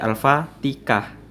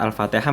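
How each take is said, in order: First: The middle consonant is pronounced as a k. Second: The middle consonant is pronounced as an h. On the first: The speaker calls it wrong. "terbacalah kata Al-Fatihah menjadi Al-Fatikah" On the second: The speaker calls it right. "bukan lagi Alfa Al-Fatihah"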